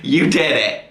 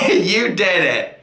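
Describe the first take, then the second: First: Said in the usual way. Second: Slow, laughing self-praise. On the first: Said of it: "I'm like". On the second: Real, not acted. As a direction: savor it, laughing at yourself.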